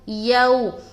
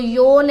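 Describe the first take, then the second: First: The vowel is a soft au diphthong. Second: The vowel is a plain long o sound. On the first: The speaker calls it right. "बल्कि यौ यौ ... नरमी के साथ अदा करेंगे" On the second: The speaker calls it wrong. "कुछ लोग पढ़ेंगे यो ... यो नहीं पढ़ना"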